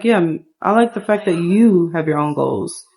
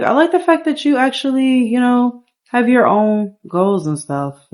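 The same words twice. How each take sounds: First: Lightly voiced man, close to own pitch; man on a date. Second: Higher-pitched woman's line; woman on a date. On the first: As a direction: answer as the man, in an everyday register. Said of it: "He's like". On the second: Acted. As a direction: play the date speaking higher, easing down at the end. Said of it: "she's like".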